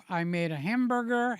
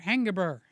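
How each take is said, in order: First: Said in the usual way. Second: Hangaburger with an ng in place of m; joke mispronunciation. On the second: Shown as a demonstration. Telling viewers about his dinner, says hangaburger playfully. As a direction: say hangaburger as a silly slip. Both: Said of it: "Anybody say hangaburger?".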